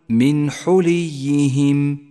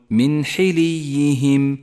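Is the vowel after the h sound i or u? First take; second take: u; i. First: The h is followed by a u vowel. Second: The h is followed by an i vowel. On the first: The speaker calls it right. "فقل من حليهم" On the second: The speaker calls it wrong. "ولا تقل من حليهم، فإنه خطأ شائع"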